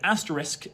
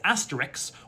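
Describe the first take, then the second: First: The word ends with the sounds s then k. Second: The word ends with the sounds k then s.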